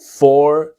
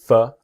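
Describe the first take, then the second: First: The word has a full, clear vowel. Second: The word has a reduced schwa vowel. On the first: "strong pronunciation" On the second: "weak pronunciation"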